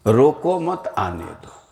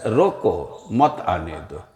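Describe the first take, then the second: First: Group मत with रोको, as in don't stop; no pause after रोको. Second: रोको set apart, then मत आने दो as one phrase; slow, separate रोको, with मत moved onto आने दो; pause after रोको. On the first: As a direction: say "रोको मत" as one unit, then release आने दो. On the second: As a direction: break after रोको, meaning stop, don't let them come. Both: Shown as a demonstration. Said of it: "इसी को थोड़ा बदल करके कह दिया जाए".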